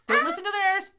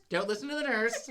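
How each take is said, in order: First: Loud and high, a punchy warning; a shouted "don't listen to the nurse"; emphatic warning. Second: The same warning said again through a laugh; a giggling "don't listen to the nurse"; laughing repeat. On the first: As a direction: call it out hard to the listener. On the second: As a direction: let the laugh take over the repeat. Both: Real, not acted.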